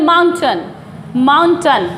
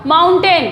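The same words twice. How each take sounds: First: माउंटेन said as "MAUN-tun"; weak short vowel ending माउंटेन; teacher models माउंटेन with a falling "tun"; correct pronunciation. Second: माउंटेन said as "maun-TAYN"; full ay vowel ending माउंटेन; wrong take, माउंटेन with a clear "tain"; mispronunciation demo. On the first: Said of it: "इसको बोलते हैं". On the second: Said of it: "ये माउंटेन नहीं होता". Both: Shown as a demonstration.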